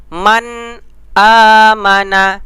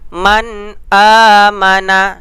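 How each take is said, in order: Both takes have the same delivery.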